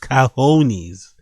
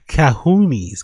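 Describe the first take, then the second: First: The middle vowel is an oh sound. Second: The middle vowel is a long oo sound.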